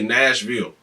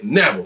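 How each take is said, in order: First: The middle 'sh' sound is clearly pronounced. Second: The middle 'sh' sound is left out. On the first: The speaker calls it wrong. "we don't say Nashville" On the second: The speaker calls it right. "ain't no S's"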